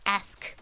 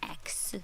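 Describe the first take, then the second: First: The s sound comes before the k. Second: The k sound comes before the s. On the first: The speaker calls it right. "it's ask" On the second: The speaker calls it wrong. "not X"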